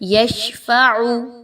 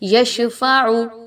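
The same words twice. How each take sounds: First: The sh sound flows out breathy without bouncing. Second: The sh sound ends with an echoing bounce. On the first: The speaker calls it right. "शीन को आपने हम्स इसमें लाना है, लेकिन आपने इसमें कलकला नहीं करना" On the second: The speaker calls it wrong. "ये आवाज़ नहीं आनी चाहिए"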